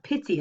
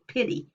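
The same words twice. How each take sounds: First: The t is a clear plain stop. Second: The t is a quick tongue flap.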